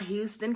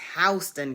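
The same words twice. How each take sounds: First: Houston is said in the non-local way. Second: Houston is said in the local Georgia way. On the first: The speaker calls it wrong. "It's not" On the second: The speaker calls it right.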